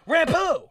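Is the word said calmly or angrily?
angrily. It is said in an angry, loud way.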